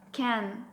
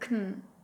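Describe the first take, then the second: First: The vowel is full and clear. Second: The vowel is dropped almost entirely. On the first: "Strong form is can" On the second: "or even kn"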